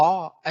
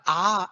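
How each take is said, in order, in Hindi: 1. स्वर गोल होंठों से बोला जाता है। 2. स्वर खुला होता है, गोल किए बिना बोला जाता है। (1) "गोल करके बोलना है" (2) "ऐसा नहीं बोलना है"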